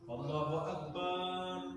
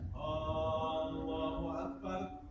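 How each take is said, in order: First: The vowel after the b in Akbar is drawn out. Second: The first vowel of Allahu is drawn out long. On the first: The meaning of the phrase changes. "ba-nya jadi panjang" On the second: It becomes a question about whether God is greatest. "Kalau kita panjangkan lafaz Allahnya"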